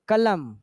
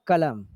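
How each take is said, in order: First: कलम with too much force on the syllables; misplaced word stress. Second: कलम with light first syllable, measured weight after; correct word stress. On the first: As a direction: overstress कलम as a wrong example. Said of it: "तो ऐसे नहीं पढ़ना है". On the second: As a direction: say कलम lightly, without hammering it. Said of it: "बोलना है कलम". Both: Shown as a demonstration.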